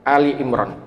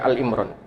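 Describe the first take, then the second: First: The first word is said as two syllables, Ali. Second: The first word is said as one syllable, Al. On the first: The speaker calls it right. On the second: The speaker calls it wrong. "bukan Al Imran"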